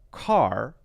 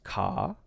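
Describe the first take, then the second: First: The final R is clearly pronounced at the end. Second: The final R is dropped, ending in open vowel. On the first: "Americans would say R, car" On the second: "When he says C A R, it's ka"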